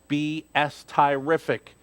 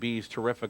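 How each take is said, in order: First: The start is said as two letters, B S. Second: The start is said as one word, "bees". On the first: The speaker calls it right. "the B S for Batiste Stable" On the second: The speaker calls it wrong. "I've been saying B's terrific all along"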